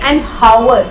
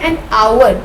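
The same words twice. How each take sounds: First: The h at the start is pronounced. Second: The h at the start is silent. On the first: The speaker calls it wrong. "We do not actually say an hour" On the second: The speaker calls it right. "we say an hour, and as a result h is silent"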